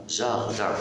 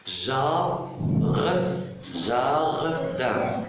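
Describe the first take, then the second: First: Said in the usual way. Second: "Jar-, jardin" stretched, with a long break after the first syllable; split into syllables. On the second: Shown as a demonstration. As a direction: sound out "jardin" slowly in two syllables. (« jardin » en deux syllabes détachées et étirées) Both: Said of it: "Deux syllabes".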